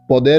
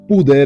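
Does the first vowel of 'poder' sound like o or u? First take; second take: o; u. First: The first vowel sounds like o. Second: The first vowel sounds like u. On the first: It is the verb. "é verbo" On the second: It is the noun. "é substantivo"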